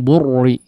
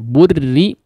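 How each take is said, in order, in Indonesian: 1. Bunyi r-nya berat dan tebal. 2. Bunyi r-nya ringan dan tipis. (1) "jangan burri" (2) "huruf ra-nya di sini ditipiskan"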